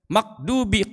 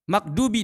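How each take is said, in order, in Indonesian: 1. Konsonan tengahnya suara q belakang. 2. Konsonan tengahnya suara d biasa.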